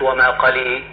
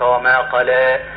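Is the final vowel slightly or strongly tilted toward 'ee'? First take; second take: strongly; slightly. First: The final vowel is strongly tilted toward ee. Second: The final vowel is only slightly tilted toward ee. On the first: The speaker calls it wrong. "هذا يعتبر إمالة" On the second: The speaker calls it right. "يسمى تقليل"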